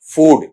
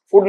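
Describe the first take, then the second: First: फूड with a long oo; फूड, vowel stretched long; correct long vowel. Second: फूड said short, as "fud"; short-vowel फूड, the mistaken way; wrong short vowel. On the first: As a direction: hold the oo in फूड. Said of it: "इस तरीके से इसमें deal किया जाएगा". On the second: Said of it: "फूड नहीं". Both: Shown as a demonstration.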